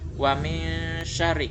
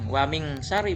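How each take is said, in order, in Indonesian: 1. Nun itu samar dan tersembunyi. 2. Nun itu bunyi ng yang jelas. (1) "nggak jelas, samar-samar" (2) "Bukan waming, waming sari bukan"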